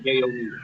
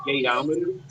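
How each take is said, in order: First: "gayometer" as gay-o-meter; "gayometer" with a plain "meter" ending; wrong pronunciation. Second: "gayometer" as gay-OM-eter; correct pronunciation. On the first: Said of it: "not gayometer". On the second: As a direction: say "gayometer" as one word, like thermometer. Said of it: "the correct pronunciation is". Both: Shown as a demonstration.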